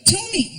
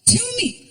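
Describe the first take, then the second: First: Put-on insistent kid. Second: Put-on more insistent kid. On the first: Son pestering his dad, whiny kid voice. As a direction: nag like a small boy. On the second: Son pushing his dad harder, whinier kid voice. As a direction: push harder, like a spoiled boy.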